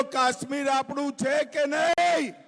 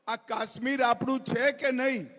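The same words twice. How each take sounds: First: Asked again louder to the crowd. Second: Said in the usual way. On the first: Shown as a demonstration. Rally speaker repeats it louder to the crowd. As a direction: raise the question louder, calling for a roar back. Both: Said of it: "અરે, જોરથી બોલો".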